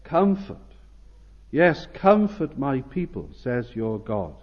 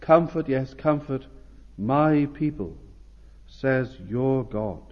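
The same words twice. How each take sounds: First: Urgent. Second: Tender. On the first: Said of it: "Notice here how urgent the Lord is". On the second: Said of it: "notice also how tender and how intimate". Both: Acted.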